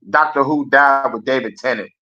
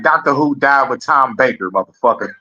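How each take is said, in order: First: Said in the usual way. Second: A hint of a gruff old-school fan. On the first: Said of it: "I'd be like". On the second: Streamer imitating an old-school Doctor Who fan, lightly voiced. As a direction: lightly voice an old head laying down the law.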